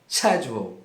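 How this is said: It is said with a British pronunciation. "na forma britânica você pode dizer schedule"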